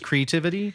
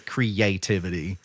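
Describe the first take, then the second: First: The 'a' sound in the middle is dropped. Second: The 'a' sound in the middle is pronounced. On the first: This is how the book's author says it. "He does not pronounce the A" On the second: This is how the hosts usually say it. "like we would"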